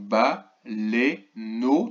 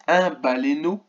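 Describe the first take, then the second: First: "baleineau" very slowly in three separate syllables. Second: Said in the usual way. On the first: Shown as a demonstration. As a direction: break "baleineau" into ba, lei, neau with gaps. (« baleineau » découpé lentement en trois syllabes) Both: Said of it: "trois syllabes".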